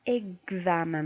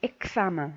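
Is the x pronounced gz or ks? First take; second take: gz; ks. First: The x is pronounced as gz. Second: The x is pronounced as ks. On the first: The speaker calls it right. "كتسمعوا معايا النطق اكزامان" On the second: The speaker calls it wrong. "ماشي اكسامان، نو"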